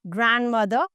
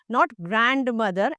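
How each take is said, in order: First: The D sound is silent. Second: The D sound is pronounced. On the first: The speaker calls it right. "the D is silent" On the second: The speaker calls it wrong.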